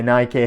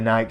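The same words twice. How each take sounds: First: It is said the American way, ending in ee. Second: It is said the British way, rhyming with bike. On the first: "In the U S, obviously you guys call it Nike" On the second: "Here in the U K, we call it Nike"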